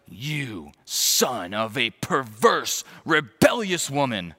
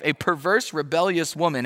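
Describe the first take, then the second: First: Very slow, each word leaned on; slow seething insult. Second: Higher, amazed retelling of "perverse"; incredulous repeat. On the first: Acted. Saul insulting Jonathan's mother, slow and seething. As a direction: drag out "perverse" with contempt. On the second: Real, not acted. Preacher repeating Saul's insult in disbelief, higher and amazed. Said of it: "He just called Jonathan's mother".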